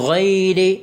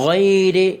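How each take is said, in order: No difference in how they are said.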